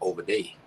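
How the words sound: It is said in a Savannah accent.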